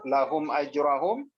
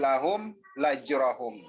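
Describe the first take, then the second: First: The word ajrahum starts directly with a vowel. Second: An extra la sound comes before ajrahum. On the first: The speaker calls it right. "Jangan sampai ter, tertambah hurufnya" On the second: The speaker calls it wrong. "ditambah lagi la"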